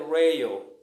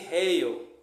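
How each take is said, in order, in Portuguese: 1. O R é pronunciado do jeito inglês. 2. O R é pronunciado do jeito do português brasileiro. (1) "a palavra certa é rail" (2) "muitos chamam de rail"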